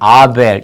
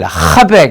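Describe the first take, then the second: First: The name begins directly with a vowel. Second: The name begins with a breathy h sound. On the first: This is the Greek form without the h. "아벨 이렇게 발음해버려요" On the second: This is the original Hebrew form. "히브리어의 흐 발음"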